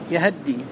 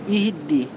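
First: The h carries a full a vowel. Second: Both the y and the h take i vowels. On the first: "فتح الهاء فتحة كاملة" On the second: "إتباع الياء للهاء في الكسر"

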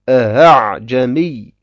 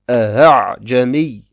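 No difference in how they are said.

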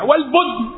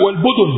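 First: The d sound has no vowel after it. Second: The d sound is followed by a u vowel. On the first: This is the lightened everyday form. "ولكن سكنت للتخفيف" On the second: This is the original Arabic form. "بضم الدال، هذا هو الأصل العربي"

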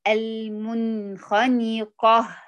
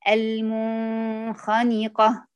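First: The n is pronounced clearly before kh. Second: The n is hidden, blending softly into kh. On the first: This is the standard reading in the usual tradition. "نقرأ النون الساكنة عند الغين والخاء مظهرة" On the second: This is the reading of one particular tradition. "فيها بتخفي النون الساكنة عند الغين والخاء"

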